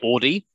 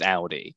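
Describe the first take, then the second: First: The first vowel is not an 'ow' sound. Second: The first vowel is an 'ow' sound. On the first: The speaker calls it wrong. "is not actually the correct pronunciation" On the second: The speaker calls it right. "getting that a- ow sound"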